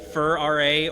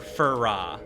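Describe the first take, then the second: First: The ending is spelled out as two letters. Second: The ending is said as one syllable.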